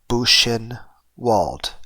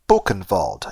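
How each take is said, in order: First: The W is said as an English W. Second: The W is said as a V. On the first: It is read as an English word. "as a native English speaker, I look at this word and I would think it would be Buchenwald" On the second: It is read as a German word. "if I was reading it as a German word"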